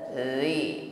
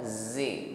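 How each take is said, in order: First: The consonant is soft, with the tongue, without hiss. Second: The consonant is a buzzing hissed z sound. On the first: The speaker calls it right. "ucapkan huruf dzal tipis lembut tanpa bunyi desis" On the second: The speaker calls it wrong. "bukan zi"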